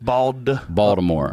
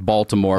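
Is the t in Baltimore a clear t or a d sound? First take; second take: d sound; clear t. First: The t is softened toward a d sound. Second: The t is pronounced as a clear t. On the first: "I say Baltimore with a D. I put a touch of a D on it"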